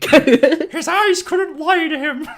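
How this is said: It is said in a put-on character voice.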